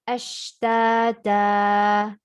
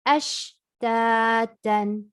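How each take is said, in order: First: The word ends with an a vowel. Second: The word ends with an n sound. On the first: The reader stops on the word. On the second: The reader continues past the word.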